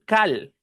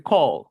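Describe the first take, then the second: First: "cal" with a Spanish a and a clear l. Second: "call" with a rounded open O, almost "co". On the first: Teacher showing the wrong reading of "call". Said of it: "No se dice cal". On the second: Teacher giving the right "call". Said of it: "Se dice call". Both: Shown as a demonstration.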